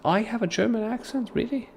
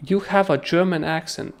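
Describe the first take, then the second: First: High incredulous really; surprised disbelief. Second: Said in the usual way. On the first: Real, not acted. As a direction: pitch jumps way up in disbelief. Reacting to viewer comment.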